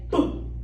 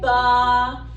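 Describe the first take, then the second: First: The b sound is clipped with no vowel. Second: The b sound is followed by an uh vowel. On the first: The speaker calls it right. "we would say boo, ed. Really clip it off" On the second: The speaker calls it wrong. "Instead of saying ba"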